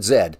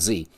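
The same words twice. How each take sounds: First: The letter is said the Canadian way. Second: The letter is said the American way. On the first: "because we pronounce it Z" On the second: "not Z"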